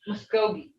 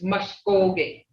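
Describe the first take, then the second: First: It is said with English-like sounds. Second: It is said with the native Mvskoke sounds. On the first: The speaker calls it wrong. "Some people say Muskogee" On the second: The speaker calls it right. "It's Muskogee"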